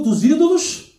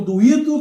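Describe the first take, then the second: First: DOS ÍDOLOS raised high and punched; stress on DOS ÍDOLOS. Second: Said in the usual way. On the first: Real, not acted. Preacher correcting to the plural for the church, ÍDOLOS stressed high. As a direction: hit the plural ÍDOLOS, voice climbing.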